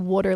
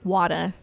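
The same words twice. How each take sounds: First: It is said without a New York-style accent. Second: It is said with a New York-style accent. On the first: "they don't say water like that in like North Jersey or New York" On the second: "They say water"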